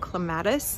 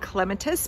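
First: Clematis is said with the speaker's home pronunciation. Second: Clematis is said with the British pronunciation. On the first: The speaker calls it wrong. "I was raised saying" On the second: The speaker calls it right. "if you're British or pronounce it properly, you will say"

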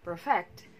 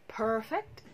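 First: The stress is on the second syllable. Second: The stress is on the first syllable. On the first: It is used as a verb. "perfect is a verb" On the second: It is used as an adjective. "Perfect is an adjective"

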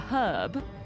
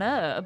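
First: The word begins with a clear H sound. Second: The word begins with no H sound. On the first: This is the British way of saying it. "in the U K, we pronounce that with an hard, a hard H" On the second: This is the American way of saying it. "in America, it is an herb. The H is silent"

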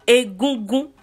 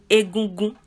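First: Mid tone first, then high tone on the last two syllables. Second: All three syllables carry a level mid tone. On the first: "re mi mi" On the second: "Take re re re egungun"

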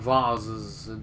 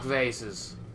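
First: The word is said in a fancy, posh way. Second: The word is said in a plain, everyday way.

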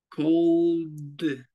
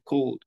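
First: The final d sound is strongly exaggerated. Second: The final d sound is light and subtle. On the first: "Yo lo pronuncio así tan marcado" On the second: "Mucho más sutil"

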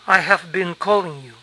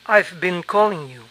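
First: 'I have' is said as two full words. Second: 'I have' is contracted to 'I've'.

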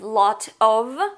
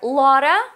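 First: Both words are said fully and separately. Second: The words blend into a reduced 'lotta'.

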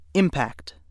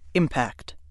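First: The stress falls on the first syllable. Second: The stress falls on the first syllable.

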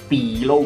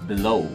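First: The word is said in an overly exaggerated way. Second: The word is said in a plain, natural way. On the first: The speaker calls it wrong. "嘅話太誇張啦" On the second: The speaker calls it right. "咁就可以啦"

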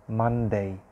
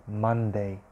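The two takes are said the same way.

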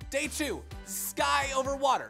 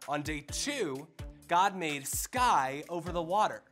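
First: It is said as fast as possible. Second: It is said at a normal speed.

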